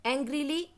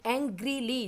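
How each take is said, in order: First: Teacher's rising demo of एंग्रीली; careful pronunciation. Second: एंग्रीली said with a falling tune, settled and final; teacher's closing demo of एंग्रीली; careful pronunciation. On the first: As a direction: sound out एंग्रीली with a lifting end. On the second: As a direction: say एंग्रीली once more, letting it drop. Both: Shown as a demonstration. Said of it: "थोड़ा सा टंग को turn करना पड़ा".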